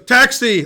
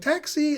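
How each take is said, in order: First: It is said in a normal male voice. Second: It is said in a put-on female voice.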